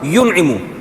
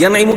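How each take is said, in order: First: The first vowel is a short 'u'. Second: The first vowel is a short 'a'. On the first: The speaker calls it right. "क्या होगा" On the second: The speaker calls it wrong. "के बजाय"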